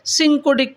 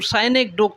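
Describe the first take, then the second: First: The word begins with a short 'sin' sound. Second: The word begins with a long 'sigh' sound. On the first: The speaker calls it wrong. "कुछ लोग इसको सिंकोडिक पढ़ते हैं, जो सही नहीं है।" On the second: The speaker calls it right. "ये साइनेकडोक साइनेकडोक कहलाएगा।"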